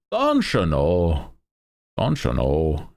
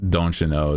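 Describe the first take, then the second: First: Slow, drawn-out Midwest-Irish accent; hammed-up northern accent sliding into Irish; exaggerated near-Irish accent. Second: Put-on Midwest accent teetering on Irish; mock Midwestern accent with an Irish tinge; Midwestern, almost Irish. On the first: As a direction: stretch it out in a mock Irish lilt. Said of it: "starts to sound like it's almost teetering on Irish". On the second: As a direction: say DON'T YOU KNOW with a northern, near-Irish lilt. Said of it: "The way I said it starts to sound like it's almost teetering on Irish". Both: Shown as a demonstration.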